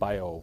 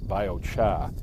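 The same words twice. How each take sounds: First: It is said in a Midwest accent. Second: It is said in a New England accent.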